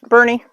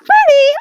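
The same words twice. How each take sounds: First: It is said in a calm, quiet voice. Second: It is said in an excited, animated voice.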